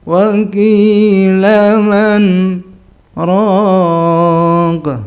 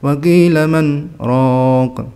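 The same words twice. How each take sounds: First: It is recited slowly with a longer break. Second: It is recited quickly with a shorter break. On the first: "lebih lama" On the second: "kalau bacanya cepat"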